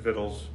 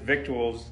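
First: The word is said as two syllables, vittles. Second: The word is said with a k sound, three syllables. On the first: This is how other people say it. "Somebody else pronounces it vittles" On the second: This is the speaker's own way of saying it. "I pronounce it victuals"

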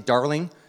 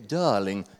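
First: It is said in a plain, everyday accent. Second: It is said in a posh, refined accent. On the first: The speaker calls it wrong. "You cannot say Darling" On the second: The speaker calls it right. "It has to be like you're in a 1960s James Bond movie"

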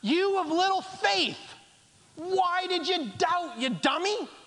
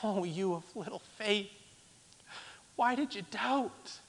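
First: It is said harshly, with an edge. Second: It is said gently, like a caring parent.

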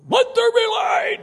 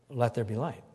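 First: It is shouted loudly. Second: It is said calmly and quietly.

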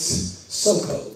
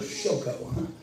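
First: The name begins with a plain s sound. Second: The name begins with an sh sound. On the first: This is the literal Hebrew form. The speaker calls it right. "Literally in Hebrew, it's Soko" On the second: This is the familiar, more comfortable form. The speaker calls it wrong. "it makes us feel better to go Shoko"

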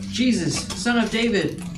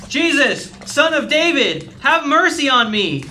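First: It is said at a normal, quiet volume. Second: It is shouted loudly.

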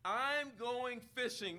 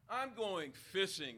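First: It is said with a frustrated tone. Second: It is said in a plain, neutral tone.

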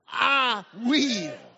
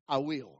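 First: It is said more loudly. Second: It is said at normal loudness.

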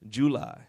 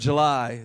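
First: July is said in a Louisiana accent. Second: July is said in a standard accent. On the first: "it's July, if you're from Louisiana" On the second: "Instead of July"

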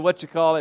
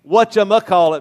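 First: The word drops the middle 'muh' syllable. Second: The word includes the middle 'muh' syllable. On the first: "We just would say whatchacallit" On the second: "whether you throw the muh in there"

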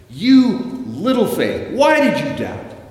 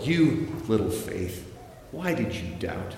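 First: It is said in an angry tone. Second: It is said in a scornful tone.

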